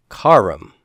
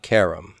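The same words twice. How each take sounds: First: Karam said KAH-ram, long open first A; the correct long-A karam; lengthened karam. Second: Karam with short e, KEH-ram; the wrong short-vowel karam. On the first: Teacher showing students: karam with long A. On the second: Teacher contrasting for students: karam with short e. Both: Shown as a demonstration. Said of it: "not karam".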